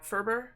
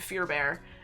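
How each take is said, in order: First: The first syllable sounds like 'fur'. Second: The first syllable sounds like 'fear'. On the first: The speaker calls it right. "And I'm saying that right, right?" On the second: The speaker calls it wrong. "it looks like Fear Bear to me"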